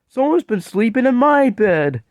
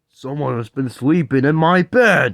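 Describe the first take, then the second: First: It is said in a sweet, tiny voice. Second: It is said in a deep, gruff voice.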